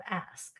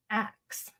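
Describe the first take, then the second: First: "ask" with the s before the k; standard ask. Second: "axe" with the k before the s; ask as axe. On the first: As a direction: say "ask", ending in sk, softly. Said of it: "instead of ask". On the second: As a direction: say "axe", swapping the final consonants of ask. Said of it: "African Americans do say axe instead of ask". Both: Shown as a demonstration.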